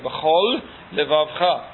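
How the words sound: A short pause separates the two words. Both lamed sounds are kept distinct. The speaker calls it right. "Másodperc meg kell állni"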